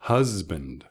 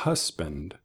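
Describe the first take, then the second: First: "husband" with a buzzed z sound in the middle; buzzing middle z. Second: "husband" with a hissed voiceless s in the middle; wrong s sound. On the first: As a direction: voice the s in "husband" like a bee. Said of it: "sino como una abeja". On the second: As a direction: say "husband" with a sharp s like a snake. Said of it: "No suena como nuestro serpiente". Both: Shown as a demonstration.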